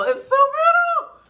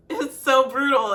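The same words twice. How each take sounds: First: So brutal pitched way up, slow and strained; anguished cry. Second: Said in the usual way. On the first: Real, not acted. Reacting to a heartbreaking lyric, strained high cry. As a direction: let it break high on brutal. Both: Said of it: "repeated with rising feeling".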